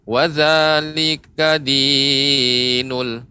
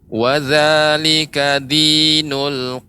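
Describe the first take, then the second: First: The vowel in din is held over two beats. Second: The vowel in din is held two beats. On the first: The speaker calls it wrong. "lebih dipanjangkan ... lebih dari dua harokat" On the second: The speaker calls it right. "cara memanjangkannya cukup ditekan saja"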